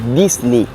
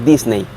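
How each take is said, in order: First: The name is pronounced the English way. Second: The name is pronounced the Spanish way. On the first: The speaker calls it right. "En realidad en inglés sería Disney" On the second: The speaker calls it wrong. "no Disney"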